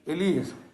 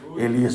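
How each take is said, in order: First: It is said in a soft, peaceful tone. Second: It is said in a stern, demanding tone. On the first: The caller is lovingly and calmly waking someone. The speaker calls it right. "Está de forma pacífica" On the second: The caller is scolding someone for being late. The speaker calls it wrong. "com a impostação da cobrança"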